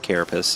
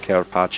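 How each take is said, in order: First: It is said the ordinary English way. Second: It is said like an Italian dish name. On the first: "I know it's pronounced like carapace" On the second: "I call it carapace because it looks like an Italian dish"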